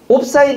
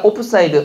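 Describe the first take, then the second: First: The first part is a clipped 'op'. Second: The first part is a full 'opeu'. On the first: The speaker calls it wrong. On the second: The speaker calls it right.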